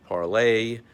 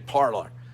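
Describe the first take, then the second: First: It ends in an 'ay' sound, French-style. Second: It ends in an 'or' sound, American-style. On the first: It follows the original French word. "as it was meant uh, to be uh, meant to be pronounced. Some kind of the French word for speech" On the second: It follows everyday American habit. "here in America, we just pronounce it parlor"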